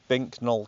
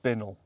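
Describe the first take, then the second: First: It is said as two parts with a k sound. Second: It is said as one word without a k sound. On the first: The speaker calls it wrong. "if you try and say this phonetically, it's" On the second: The speaker calls it right. "apparently you're supposed to pronounce it"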